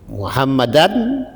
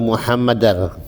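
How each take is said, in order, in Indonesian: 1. Kata ini diakhiri dengan bunyi n. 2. Kata ini diakhiri dengan bunyi r. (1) "tanwin bertemu ro" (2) "Kenapa dibaca"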